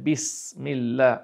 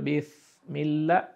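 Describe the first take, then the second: First: The s is said light and plain. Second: The s is replaced by a different consonant. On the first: The speaker calls it right. "আপনাকে উচ্চারণ করতে হবে বিসমিল্লাহ" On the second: The speaker calls it wrong. "যদি ফা উচ্চারণ করেন তাহলে হয়ে যাবে বিসমিল্লাহ, ভুল হয়ে গেল"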